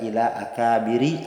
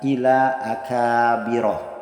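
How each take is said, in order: First: The final word ends with an i vowel. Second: The final word ends with an a vowel. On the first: The speaker calls it wrong. "Tidak boleh dibaca" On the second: The speaker calls it right. "tanda majrurnya berharokat fathah"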